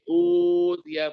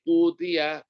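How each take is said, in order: First: The long vowel is held for four beats. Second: The long vowel is held for two beats. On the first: "tawasul empat harokat" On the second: "qashar dua harokat"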